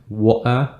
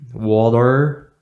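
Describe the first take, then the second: First: The r at the end is silent. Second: The r at the end is pronounced. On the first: "from Great Britain, then you don't pronounce the letter R" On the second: "if you are from United States... you pronounce that"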